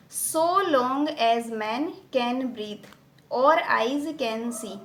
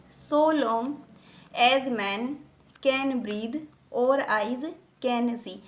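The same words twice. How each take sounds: First: Slow, measured reading of a verse line; deliberate recitation with long vowels; whole verse line. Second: "so long", "as man", "can breathe" as slow separate pairs; measured foot-by-foot reading, pausing after "so long" and each following pair; two syllables together. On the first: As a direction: recite the full line slowly in one sweep. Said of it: "ये पूरी एक line है". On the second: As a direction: split "so long / as man / can breathe / और eyes / can see" with pauses. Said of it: "टू syllable साथ में चल रहे हैं". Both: Shown as a demonstration.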